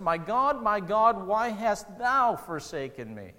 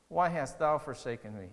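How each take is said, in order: First: Loud anguished cry, drawn out slowly; cries out. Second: Said in the usual way. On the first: Retold or imitated. Preacher voicing Jesus crying out on the cross, anguished cry. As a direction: cry it out from the cross, slow and pleading. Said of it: "He, he cries out". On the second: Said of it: "quiet repeat after the cry".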